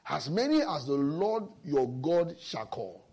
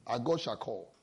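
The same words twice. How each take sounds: First: "As many as the Lord your God shall call" read slowly, leaning on "many"; slow, weighty scripture reading with "many" stressed; stress on God's call. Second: "our God shall call" repeated softer and lower, like an aside; a soft, low murmur of "our God shall call"; quiet echo. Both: Shown as a demonstration. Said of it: "He put an emphasis".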